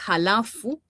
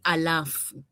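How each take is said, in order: First: The word begins with an h sound. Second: The word begins directly with a vowel. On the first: The speaker calls it right. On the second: The speaker calls it wrong.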